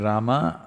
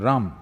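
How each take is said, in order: First: The final syllable is kept. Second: The final syllable is dropped, North Indian style.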